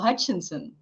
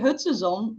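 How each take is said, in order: First: The name is pronounced the English way. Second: The name is pronounced the Dutch way. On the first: "it translates very well to" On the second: "in Dutch we say"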